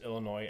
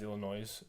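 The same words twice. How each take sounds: First: The final S is silent. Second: The final S is pronounced aloud. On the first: The speaker calls it right. "I mispronounced Illinois" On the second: The speaker calls it wrong. "as Illinois"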